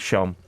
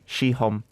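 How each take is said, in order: First: The word is squeezed quickly into one syllable. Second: The word is said fully in two syllables. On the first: It is the relaxed, everyday pronunciation. "I say it quickly" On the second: It is the careful, exact pronunciation. "if you want to be a stickler"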